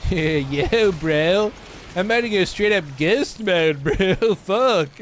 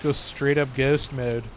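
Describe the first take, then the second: First: Exaggerated California bro accent, pitched up; hammed-up Californian drawl with a laugh; beyond-California accent. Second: Said in the usual way. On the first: Streamer jokingly riffing on ghost mode, exaggerated California accent. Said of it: "that's my true accent. That's, uh, that's beyond California".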